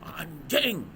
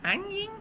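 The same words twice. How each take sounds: First: It is said with strong, forceful emphasis. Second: It is said weakly, without forceful emphasis.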